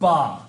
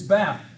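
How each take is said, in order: First: It is said with a British accent. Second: It is said with an American accent. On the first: "the British don't. They say bath" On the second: "it's bath"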